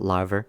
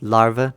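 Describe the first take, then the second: First: The word is said with a Bristolian accent. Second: The word is said without a Bristolian accent. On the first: The speaker calls it wrong. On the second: The speaker calls it right.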